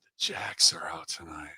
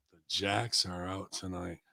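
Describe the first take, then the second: First: Whispering the phrase to himself, much lower and softer; whispered repeat. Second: Murmured back quietly, lower pitch; softly repeated. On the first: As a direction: mull it over under your breath. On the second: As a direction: muse on the words quietly. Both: Shown as a demonstration. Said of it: "oh, look, the Jacks are out tonight".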